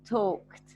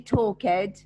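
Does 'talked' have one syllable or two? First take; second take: one; two. First: The ending joins the word with no extra syllable. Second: The ending is said as a separate syllable. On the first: The speaker calls it right. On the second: The speaker calls it wrong.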